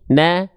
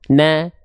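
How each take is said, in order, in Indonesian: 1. Diucapkan sambil tersenyum, terdengar lebih tipis. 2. Diucapkan sambil tersenyum, terdengar lebih tipis.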